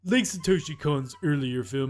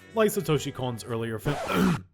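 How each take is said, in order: First: It is read in an imitated, put-on voice. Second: It is read in the speaker's ordinary voice. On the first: The speaker calls it right. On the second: The speaker calls it wrong.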